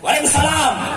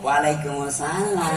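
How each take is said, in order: First: It is said in a firm, plain voice. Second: It is said in a soft, languid voice.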